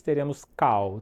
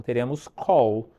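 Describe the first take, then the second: First: "call" said like "cau"; mispronounced call. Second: "call" with an open aw and final L; slow, careful "call", ending on L; correct call. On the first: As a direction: say "call" as Portuguese "cau", with a w glide. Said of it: "jamais teremos call". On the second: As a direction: say "call" the English way, like "kawl". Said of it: "teremos call com o cliente". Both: Shown as a demonstration.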